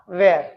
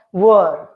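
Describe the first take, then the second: First: "were" slow, as WEHR; wrong were. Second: "were" slow, as WUR; correct were. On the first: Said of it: "and not". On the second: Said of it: "pronounced as". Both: Shown as a demonstration.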